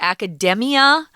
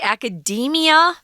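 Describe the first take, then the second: First: The middle vowel is a short E sound. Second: The middle vowel is a long E sound. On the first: The speaker calls it wrong. "copy the pronunciation of the adjective form" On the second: The speaker calls it right. "It's a long E vowel"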